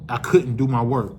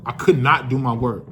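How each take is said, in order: First: Said in the usual way. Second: "not" split off and leaned on; stress on not. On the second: Shown as a demonstration. Insisting to his friends he really couldn't work, stressed "not".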